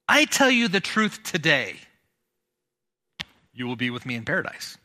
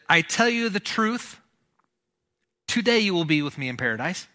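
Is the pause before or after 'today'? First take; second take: after; before. First: The pause comes after 'today'. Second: The pause comes before 'today'.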